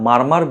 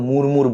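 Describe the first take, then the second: First: Both syllables have an 'ar' vowel with r. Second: Both syllables have an 'ur' vowel with r. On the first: "এটা আমরা মারমার বলি" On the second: "অনেকে হয়তো মুরমুর বলে"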